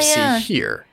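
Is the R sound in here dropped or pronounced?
pronounced. The R sound at the end is pronounced. "instead of"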